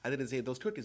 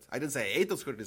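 First: The word cookies is stressed. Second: The word ate is stressed. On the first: The speaker ate something other than cookies. "but maybe I ate those brownies" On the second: The speaker did something else to them. "I might have squashed them"

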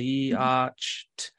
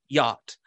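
First: The word is said sounding out each letter, with a 'ch' sound. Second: The word is said as 'yot', with no 'ch' sound. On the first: Each letter gets its usual sound, as when first sounding the word out. The speaker calls it wrong. "they blend it as yacht, which those would be the common regular pronunciations of each of those phonemes" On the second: It is the real spoken form of the word. The speaker calls it right. "they self-correct and they say yacht"

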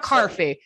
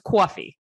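First: The first vowel is said with an R sound. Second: The first vowel is said with a W glide. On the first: The speaker calls it wrong. "it's not carfee" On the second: The speaker calls it right. "There's a W in the New York pronunciation of coffee"

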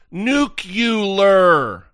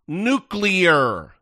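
First: The word is said as 'nucular'. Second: The word is said as 'nuclear'. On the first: The speaker calls it wrong. "can't even pronounce the word nuclear correctly. It's not nuclear" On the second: The speaker calls it right. "N-U-C-L-E-A-R. Nuclear"

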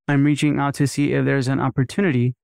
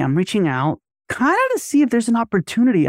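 First: Every word is crisply over-enunciated and stiff. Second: The voice is loose, varied and friendly. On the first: It sounds scripted rather than personal. The speaker calls it wrong. "They both sound too enunciated" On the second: It sounds like a real person talking. The speaker calls it right. "the vocal inflection and the modulation is just different, right? It's more personable. It's more friendly"

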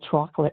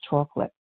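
First: It is said with a northern New Jersey pronunciation. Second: It is said with a standard, non-regional pronunciation.

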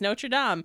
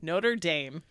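First: The name is said in a French-like way. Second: The name is said in an Americanized way. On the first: It is said like the name in the Hunchback film. The speaker calls it wrong. "I always pronounced it Notre Dame, just because it is the Hunchback of Notre Dame" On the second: It is said like the name of the college. The speaker calls it right. "And everyone's like, what? No"

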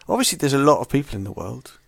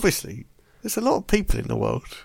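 First: It is said in his normal voice. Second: It is said in a Nigel Tufnell impression.

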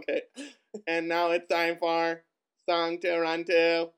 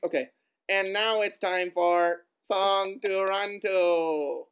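First: The pitch stays level, robot-like, at the end. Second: The pitch drops at the end. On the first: "a robot would just speak Songs to Run To" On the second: "you can't go down at the end"

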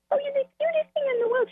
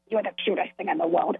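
First: It is said in an affectionate voice. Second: It is said in an angry voice.

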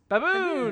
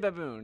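First: The word is said loudly, as an exclamation. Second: The word is said flatly, without exclamation. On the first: The speaker calls it right. "It's baboon!" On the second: The speaker calls it wrong. "you can't say baboon"

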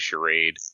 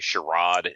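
First: It is said with a plain, ordinary pronunciation. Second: It is said with a fancy-sounding pronunciation. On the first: "instead of charade" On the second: "people that want to sound fancy. Like, they want to say charade"

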